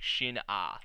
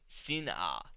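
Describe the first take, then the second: First: The name begins with an sh sound. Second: The name begins with a plain s sound. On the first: This is how it is said in the show. "the way they were pronouncing it was like shin ah" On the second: This is how the subtitles spell it. "they have it as like sin sin ah"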